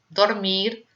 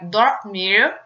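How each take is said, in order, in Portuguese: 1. O R final é o R espanhol, batido. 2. O R final é o R inglês. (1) "temos o R de espanhol" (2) "o R de, eh, do inglês, que seria o R caipira"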